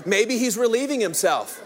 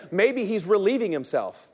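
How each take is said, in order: First: "relieving himself" read through a laugh. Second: Said in the usual way. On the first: Shown as a demonstration. Preacher laughing at Elijah's toilet jab, reading with a laugh. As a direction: chuckle your way through "Maybe he's relieving himself.". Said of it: "most translations say". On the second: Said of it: "Most of your Bibles will say".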